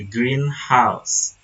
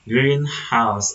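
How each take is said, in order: First: The stress falls on the second part, house. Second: The stress falls on the first part, green. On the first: A house that is green. "stress often falls onto the noun" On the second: A place to grow plants. "the first word usually gets the main stress"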